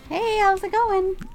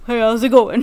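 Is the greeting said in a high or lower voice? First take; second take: high; lower. First: It is said in a high-pitched voice. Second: It is said in a lower-pitched voice.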